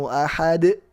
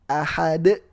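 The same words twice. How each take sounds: No difference in how they are said.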